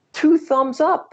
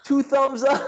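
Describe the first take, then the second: First: High, loud showman catchphrase; catchphrase exclaimed. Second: Catchphrase said through laughter; laughing catchphrase. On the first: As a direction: belt it out like a TV critic. Quoting the show's catchphrase. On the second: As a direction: laugh while saying it. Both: Retold or imitated.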